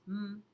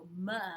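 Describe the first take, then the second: First: The consonant sound is said on its own. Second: The consonant is followed by a vowel sound. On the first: The speaker calls it right. "it goes M" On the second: The speaker calls it wrong. "M doesn't go M"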